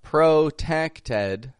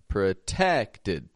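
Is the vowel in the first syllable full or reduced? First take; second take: full; reduced. First: The first syllable has a full vowel. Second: The first syllable has a reduced schwa vowel. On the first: The speaker calls it wrong. "not a protected" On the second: The speaker calls it right. "but protected"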